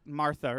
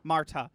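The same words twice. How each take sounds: First: Martha, th rather than a hard t; unsure name pronunciation. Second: Marta with a hard t; Marta, crisp t in the middle; corrected name pronunciation. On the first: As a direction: say Martha with "th" in the middle. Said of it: "Martha is her name, right?". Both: Real, not acted.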